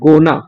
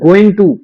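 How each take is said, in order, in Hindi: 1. यह दो छोटे अक्षरों में सिमट गया है। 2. दोनों शब्द पूरी तरह और अलग-अलग बोले गए हैं।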